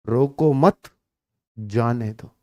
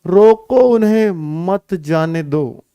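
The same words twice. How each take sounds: First: रोको मत joined, pause, जाने दो very low and soft; pause after मत. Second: Slow, रोको standing apart, मत joined to जाने दो; रोको set first. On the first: Teacher shows the let-go sense, pause after मत. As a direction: break after मत, drop away on जाने दो. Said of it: "एक होता है". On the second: Teacher shows the stopping sense, रोको set apart. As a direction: stretch रोको, then मत जाने दो together. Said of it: "एक होता है रोको". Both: Shown as a demonstration.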